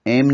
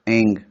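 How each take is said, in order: First: The syllable ends with an m sound. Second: The syllable ends with an ng sound. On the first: The speaker calls it wrong. "एम नहीं लगाना है" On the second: The speaker calls it right.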